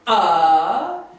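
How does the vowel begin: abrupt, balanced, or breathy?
abrupt. The vowel starts with a sharp, abrupt catch. "Hard onset is ah"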